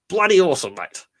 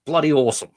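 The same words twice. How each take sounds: First: Higher, louder, punched catchphrase; hammed-up Aussie enthusiasm. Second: Said in the usual way. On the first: Fan shouting out to a cosplayer, hammed-up cheer. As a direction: sell it like a cheery Aussie bloke.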